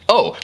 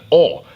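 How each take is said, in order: First: Said in the usual way. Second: Louder, very French "oh"; French accent. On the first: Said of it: "But they said it". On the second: Acted. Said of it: "in a very French way".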